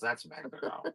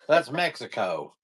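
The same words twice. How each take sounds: First: It is said in a plain, neutral accent. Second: It is said in a drawling Texan accent. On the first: The speaker calls it wrong. "they don't say it" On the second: The speaker calls it right. "they say it this way"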